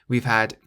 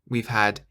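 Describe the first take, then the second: The two takes are said the same way.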